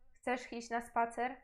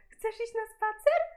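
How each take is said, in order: First: It is said in a bored, flat voice. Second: It is said in a lively, excited voice.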